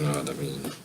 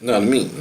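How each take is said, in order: First: Low, soft murmured repeat; quiet echo. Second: Said in the usual way. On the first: Real, not acted. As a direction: mumble it to yourself.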